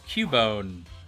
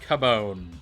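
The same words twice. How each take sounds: First: The first syllable sounds like cute. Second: The first syllable sounds like cub. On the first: The name comes from cute plus bone. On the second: The name comes from cub plus bone.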